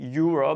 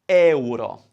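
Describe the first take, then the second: First: It starts with an English 'you' sound. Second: It starts with an Italian 'eh-oo' vowel sound. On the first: The speaker calls it wrong. "Don't say euro because they won't understand" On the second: The speaker calls it right. "Three sounds. Eu becomes one"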